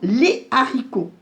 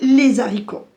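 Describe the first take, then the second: First: No z sound links les to haricots. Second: A z sound links les to haricots. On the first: The speaker calls it right. "Non, ... Pas de liaison" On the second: The speaker calls it wrong. "On ne va pas dire"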